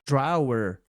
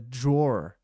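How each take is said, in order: First: It is said not rhyming with door. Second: It is said to rhyme with door. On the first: The speaker calls it wrong. "quando eu aprendi essa palavra, eu lia drawer" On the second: The speaker calls it right. "Nota sua pronúncia de gaveta em inglês"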